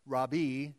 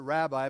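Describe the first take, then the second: First: The word is said with a Hebrew pronunciation. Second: The word is said with an English pronunciation. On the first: "in Yiddish and in Hebrew pronounced rabbi" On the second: "We pronounce it rabbi"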